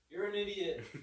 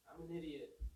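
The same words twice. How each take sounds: First: Higher and louder, mock taunt; echo talking back. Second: A lightly voiced Grinch, a bit softer, setting a trap; Grinch muttering. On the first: Echo taunting the Grinch, higher and louder. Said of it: "the Echo". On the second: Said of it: "And he's like".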